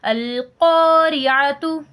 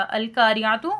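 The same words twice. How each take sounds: First: Slow chanted "अल-क़ारिअतु" with a heavy, rounded back qo; correct full qaf. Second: "अल-क़ारिअतु" with a plain light k and open aa, as al-kaariatu; wrong thin kaf. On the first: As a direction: recite "अल-क़ारिअतु" with a thick, stretched q. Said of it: "इसलिए हम इसको क्या पढ़ेंगे?". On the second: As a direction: show the mistake: thin kaa in "अल-क़ारिअतु", spoken not chanted. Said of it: "गलत हो जाएगा". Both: Shown as a demonstration.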